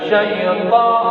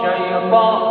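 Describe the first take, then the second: Both takes have the same delivery.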